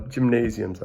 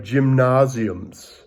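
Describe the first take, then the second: First: Said in the usual way. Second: Slow GYMNASIUMS in an attempted German accent. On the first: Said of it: "sorry, I'm trying to say it". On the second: Shown as a demonstration. Teacher trying a German word for the class, attempted German accent. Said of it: "trying to say it with a German accent".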